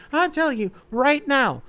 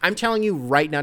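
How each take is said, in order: First: "I'm telling you right now" squeaked out much higher; mock lady voice. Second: Said in the usual way. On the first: Shown as a demonstration. Host apes a lady to viewers, high squeaky mock voice. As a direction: pitch it way up like a fussy lady. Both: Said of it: "not to sound like the lady".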